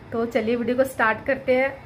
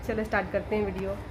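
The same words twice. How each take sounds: First: Said in the usual way. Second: Much softer and fast, half to herself; quick quiet aside. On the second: Real, not acted. Vlogger to herself before starting the album, quick soft mutter. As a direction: mumble it quickly under the breath.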